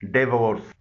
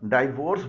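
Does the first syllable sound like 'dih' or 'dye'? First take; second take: dih; dye. First: The first syllable sounds like 'dih'. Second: The first syllable sounds like 'dye'. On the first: The speaker calls it right. "इसकी सही pronunciation है" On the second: The speaker calls it wrong. "इसे आमतौर पर डाइवोर्स बोला जाता है।"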